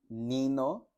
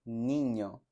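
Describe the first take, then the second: First: "Nino" with a plain n; plain n version; wrong plain n. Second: "niño" with ny; ñ version; correct ñ. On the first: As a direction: incorrect take. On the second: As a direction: correct take. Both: Shown as a demonstration. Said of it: "Noten la diferencia".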